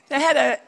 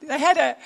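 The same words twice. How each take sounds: The two takes are said the same way.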